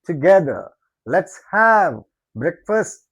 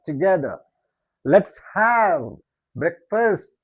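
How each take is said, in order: Both takes have the same delivery.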